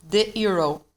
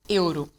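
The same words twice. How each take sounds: First: "euro" said the English way, YOO-roh. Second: "euro" said the Portuguese way, EW-roo with a tapped r. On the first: Teacher showing students the coin, English "euro". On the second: Teacher showing students the coin, Portuguese "euro". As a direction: say "euro" as a Brazilian would, EW-roo. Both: Shown as a demonstration. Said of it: "This one here is euro".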